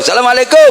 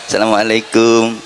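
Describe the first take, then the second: First: The greeting sounds casual and offhand. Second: The greeting sounds polite and respectful. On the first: Greeting a friend met in the street. "kalau ketemu temen di tengah jalan, bro" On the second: A student greeting a teacher. "Murid ketemu guru, itu kalau salam sambil membungkukkan badan"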